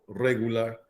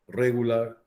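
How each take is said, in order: Both takes have the same delivery.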